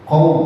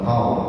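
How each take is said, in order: First: The u vowel sounds full and clear. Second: The u vowel sounds weak and unclear. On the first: The speaker calls it right. "U-nya itu harus jelas" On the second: The speaker calls it wrong.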